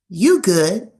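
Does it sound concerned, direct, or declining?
direct. It is said in a blunt, direct tone. The conversation is over. "which is more direct. That will communicate the end of a conversation"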